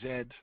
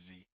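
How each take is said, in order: First: The letter is said the Canadian way, 'zed'. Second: The letter is said the American way, 'zee'.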